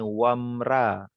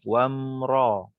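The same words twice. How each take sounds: First: The r sound is light and thin. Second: The r sound is heavy and thick. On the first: The speaker calls it wrong. "Kalau ra dia akan jadi nipis" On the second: The speaker calls it right. "hendaklah dibaca dengan tebal"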